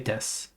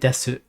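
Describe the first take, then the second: First: The final u vowel is dropped. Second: The final u vowel is fully sounded. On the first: The speaker calls it right. "You say des" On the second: The speaker calls it wrong. "typically you don't say desu"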